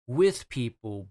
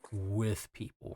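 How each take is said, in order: First: "with" pitched up, punched and drawn out; stress on WITH. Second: Softer, slowed "with", set apart; meaningful stress on WITH. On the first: Co-host explains Sonic is among people, stress on "with". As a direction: lean hard and slow on "with". Contrasts two senses of with. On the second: Co-host says Sonic isn't truly among people, weighted "with". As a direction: weigh "with" slowly, without raising the voice. Second, deeper sense of with people. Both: Real, not acted.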